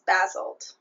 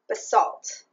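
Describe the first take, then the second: First: It is said with a British pronunciation. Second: It is said with an American pronunciation. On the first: "apparently in Britain it's basalt" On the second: "that is how you say it in America"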